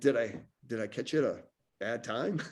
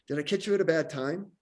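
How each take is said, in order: First: It is said slowly, casually, without urgency. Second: It is said quickly and briskly, with urgency. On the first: The call seems casual with no set purpose. The speaker calls it wrong. "it doesn't have that sense of urgency to it" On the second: The call has a purpose and will be short. The speaker calls it right. "those voice inflections, that pacing"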